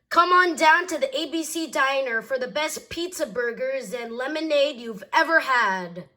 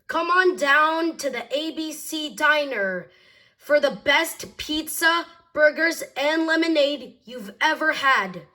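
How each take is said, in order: First: There is no pause between pizza and burgers. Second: There is a pause between pizza and burgers.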